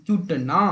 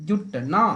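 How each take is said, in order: The two takes are said the same way.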